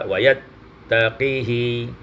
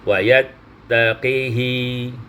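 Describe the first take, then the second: Both takes have the same delivery.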